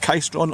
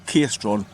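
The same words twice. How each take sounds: First: Caistron with the first syllable rhyming with "sky"; first guessed pronunciation. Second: Caistron with the first syllable rhyming with "key" or "kay"; alternative guessed pronunciation. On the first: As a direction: say Caistron as "KY-stron". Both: Shown as a demonstration. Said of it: "I don't know how to pronounce it".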